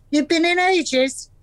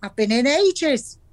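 First: Mocking echo. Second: Smug. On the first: Gran mocks husband's words. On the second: Retold or imitated. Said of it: "and said smugly".

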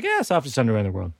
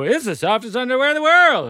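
First: Lower, softer and fast, a quiet admission; convinced deadpan. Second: A lightly mocked ad read, selling hard; imitating podcast ad hype. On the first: Retold or imitated. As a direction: mutter it like he finally gets it. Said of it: "and I was like". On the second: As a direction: pitch it higher like a gushing ad host. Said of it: "And then they go".

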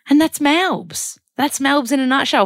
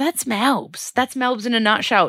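First: Sing-song catchphrase. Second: Higher, drawn-out sing-song sign-off; sing-song catchphrase. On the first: Vlogger signing off her Melbourne trip, big sing-song catchphrase. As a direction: belt it like a jingle, dragging the opening. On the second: Vlogger wrapping up her Melbourne update, sing-song catchphrase. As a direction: lilt it like a jingle, slowly at first. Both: Acted.

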